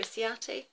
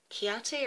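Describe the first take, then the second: First: "Ciate" started with an S sound; soft S pronunciation. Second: "Chiate" started with a K sound; hard K pronunciation. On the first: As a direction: say "Ciate" as see-AH-tay, with a soft C. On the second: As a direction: say "Chiate" as kee-AH-tay, with a hard K. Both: Shown as a demonstration. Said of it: "Chiate or Ciate".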